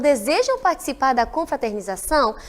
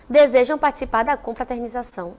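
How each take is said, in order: First: It is said with question intonation. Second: It is said with flat statement intonation. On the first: It asks something. The speaker calls it right. "eu tenho que mudar a entonação e falar como pergunta" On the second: It is not a question. The speaker calls it wrong. "Não basta falar, ... Não é uma pergunta"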